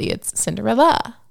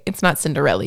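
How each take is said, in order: First: Cinderella said the correct way, a touch higher and firmer; right name. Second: Mocking the prince's wrong way of saying Cinderella; wrong name. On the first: Retold or imitated. Cinderella correcting the prince on her name, said properly. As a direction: stress the corrected Cinderella clearly. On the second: Cinderella correcting the prince's version of her name, mispronounced. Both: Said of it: "she was like, "By the way".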